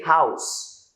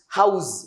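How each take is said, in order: First: The word ends with a hissing s sound. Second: The word ends with a buzzing z sound. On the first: The speaker calls it right. "This is s" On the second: The speaker calls it wrong. "We don't change it into z"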